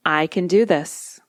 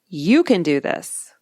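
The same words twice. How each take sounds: First: Said in the usual way. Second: You stressed and said slowly; pep talk stress on YOU. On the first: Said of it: "putting it in the second person perspective". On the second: Shown as a demonstration. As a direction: cheer yourself on by leaning on You. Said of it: "feels like a little pep talk from a good friend".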